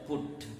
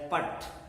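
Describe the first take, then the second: First: The vowel is a rounded 'oo' sound. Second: The vowel is an open 'uh' sound. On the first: The speaker calls it right. "you pronounce it as put" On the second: The speaker calls it wrong. "you should pronounce this as put"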